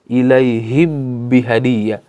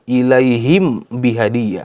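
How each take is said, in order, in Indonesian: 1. Huruf m melebur ke dalam huruf b setelahnya. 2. Huruf m dibaca penuh dan jelas. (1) "Tidak dibaca dengan idgham juga" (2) "Tidak dibaca dengan izhar ya"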